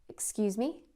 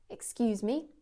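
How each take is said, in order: No difference in how they are said.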